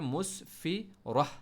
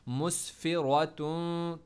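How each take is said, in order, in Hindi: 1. शब्द नरम 'ah' की आवाज़ पर खत्म होता है। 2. शब्द पूरी 'atun' की आवाज़ पर खत्म होता है। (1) "अगर स्टॉप करेंगे" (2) "अगर आप कंटिन्यू करेंगे तो प्रॉपर पढ़ेंगे"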